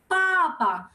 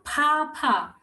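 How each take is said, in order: First: Papa with crisp, unaspirated P sounds; correct Mandarin P. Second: Papa with puffed, breathy P sounds; wrong aspirated P. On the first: Teacher giving learners the right Mandarin Papa, unaspirated. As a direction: say Papa with no puff of air on either P. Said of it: "What is P in Mandarin?". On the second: Teacher showing learners the mistake, aspirated Papa. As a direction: say Papa with a burst of air on each P. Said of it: "it's not Papa". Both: Shown as a demonstration.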